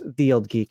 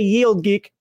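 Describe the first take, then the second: First: The first word begins with a 'th' sound. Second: The first word begins with a 'y' sound. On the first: The speaker calls it right. "if you want to say it correctly" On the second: The speaker calls it wrong. "I say Yield Geek"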